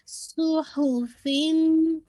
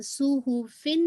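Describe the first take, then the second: First: सुहुफिन very slow, higher, ending in a held hum; merged ghunna. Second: सुहुफिन at talking speed with a plain n; unmerged ending. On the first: Teacher models the merging, slow recitation. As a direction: draw out सुहुफिन into a long nasal ending. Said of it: "तनवीन की shift हो रही है". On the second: Teacher shows what not to say, unmerged reading. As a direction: say सुहुफिन without holding the last sound. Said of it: "सुहुफिन नहीं कह रहे". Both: Shown as a demonstration.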